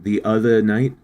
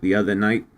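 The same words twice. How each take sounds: First: It is said with a slipped-in foreign accent. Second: It is said in the speaker's usual accent. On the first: The speaker calls it wrong. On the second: The speaker calls it right.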